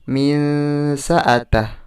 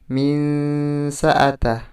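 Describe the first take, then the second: Both takes have the same delivery.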